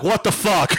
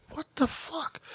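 First: Mock shout of disbelief; outraged outburst. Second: Very soft, high disbelief; stunned aside. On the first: Shopper seeing the Lone Star card, outraged outburst. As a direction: burst out, retelling your outrage. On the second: Retold or imitated. Shopper in line overhearing a tirade, stunned aside. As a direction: say it under your breath, aghast.

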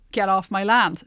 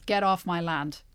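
First: Louder, barked warning. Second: Said in the usual way. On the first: Retold or imitated. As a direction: shout it at a trespasser. Voicing an American landowner, louder take.

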